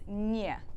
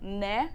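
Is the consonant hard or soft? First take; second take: soft; hard. First: The consonant is soft, palatalized. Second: The consonant is hard, English-like. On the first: The speaker calls it right. "it's не" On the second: The speaker calls it wrong. "instead of like не"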